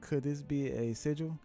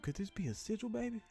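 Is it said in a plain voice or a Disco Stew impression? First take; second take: plain voice; Disco Stew. First: It is said in a plain reading voice. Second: It is said in a Disco Stew impression.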